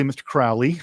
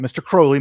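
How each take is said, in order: First: "Crowley" said as CROW-lee, first vowel rhyming with "how"; corrected pronunciation. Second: "Crowley" said as CROH-lee, first vowel like "crow"; wrong pronunciation. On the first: Settling on the right name for viewers, CROW-lee. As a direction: land "Crowley" with the ow of "cow". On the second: Correcting himself on the singer's name, CROH-lee first. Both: Shown as a demonstration. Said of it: correcting how a song title is said.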